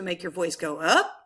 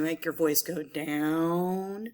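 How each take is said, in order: First: A big questioning rise on "up"; inflection up on "up". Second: "down" drawn out in a lower voice; low, lengthened "down"; inflection down on "down". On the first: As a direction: slide the pitch right up on "up". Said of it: "when you want to add inflection". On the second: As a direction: settle low and stretch "down". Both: Shown as a demonstration.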